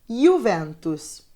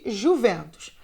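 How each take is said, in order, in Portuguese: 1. É dito com pronúncia italiana. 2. É dito com pronúncia do português brasileiro. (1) "no italiano a gente vai falar" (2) "aqui no Brasil a gente chama de"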